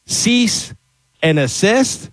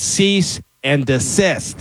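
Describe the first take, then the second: First: "cease and assist" with no D, questioning; high "cease", pause, then "and assist"; mistaken phrase. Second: "cease and desist" slowly, D sounded; slow, clear "cease and desist"; corrected phrase. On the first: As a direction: say "assist" where "desist" belongs. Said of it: "a lot of people get wrong". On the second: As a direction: say "desist" deliberately, dee-SIST. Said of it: "Nope. It's". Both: Shown as a demonstration.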